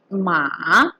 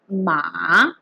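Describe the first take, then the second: First: The pitch rises from middle to high. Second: The same.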